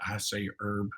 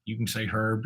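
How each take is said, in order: First: Herb said as "erb", no H sound; silent H in Herb. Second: Herb with an audible breathed H at the start; sounded H in Herb. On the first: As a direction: drop the H at the start of Herb. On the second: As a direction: pronounce the H in Herb, "hurb". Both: Shown as a demonstration.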